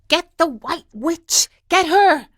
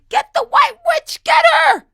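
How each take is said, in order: First: It is mumbled quietly. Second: It is shouted loudly.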